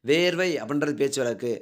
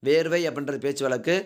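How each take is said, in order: The two takes are said the same way.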